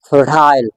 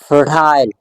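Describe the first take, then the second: First: It is said in a British accent. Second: It is said in a British accent.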